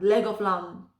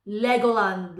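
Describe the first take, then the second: First: "leg of lamb" with a V in "of" and final M; intended phrase. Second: "Legoland" run together, ending in -land; misheard word. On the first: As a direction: say "leg of lamb" as three linked words ending in M. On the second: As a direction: say "Legoland" as one word with N-D at the end. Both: Shown as a demonstration. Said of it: "can you see the confusing part".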